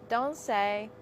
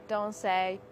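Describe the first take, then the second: No difference in how they are said.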